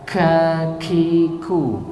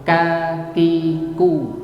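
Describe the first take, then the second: First: The k sounds carry a slight breathy hiss. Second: The k sounds are plain, without a hiss. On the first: "sedikit dihamskan" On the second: "Ada yang mengucapkan biasa"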